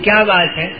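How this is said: It is said with a questioning tone. The speaker asks what the matter is. "آپ سب سمجھیں گے کہ میں سوال کر رہا ہوں"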